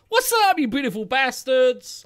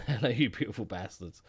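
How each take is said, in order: First: Loud, high American YouTuber greeting; bad American accent. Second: Put-on lower, laughing try at an American accent; half-hearted American accent. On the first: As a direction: shout it out in an attempted American accent. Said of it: "I can't do an American accent". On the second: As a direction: toss off a failed American accent with a chuckle. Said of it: "I can't do American accent".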